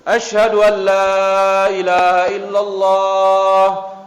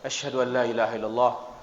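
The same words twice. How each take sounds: First: It is said in a loud, full voice. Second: It is said in a quiet, low voice. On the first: "Ulangi besar"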